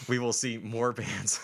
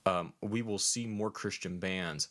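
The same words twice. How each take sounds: First: Slow words through laughter; laughing. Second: Slow words round a burp. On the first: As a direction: restart while cracking up. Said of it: "A serious moment just got ruined". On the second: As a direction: talk through a beer burp. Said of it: "uh, beer burp". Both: Real, not acted.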